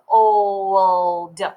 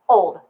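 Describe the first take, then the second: First: It is stretched out very slowly. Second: It is said quickly at normal speed.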